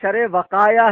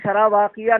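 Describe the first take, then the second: First: The second word is pronounced wiqaya. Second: The second word is pronounced waqiya. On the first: The speaker calls it right. "शरे वकाया है वो" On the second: The speaker calls it wrong. "शरह वाक़िया नहीं"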